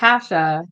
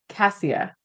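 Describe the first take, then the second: First: The name is said with an 'sh' sound. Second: The name is said with an 's' sound. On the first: This is how the name's owner says it. The speaker calls it right. "it's Kasha" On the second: This is how the name looks when read. The speaker calls it wrong. "That's how I would say it"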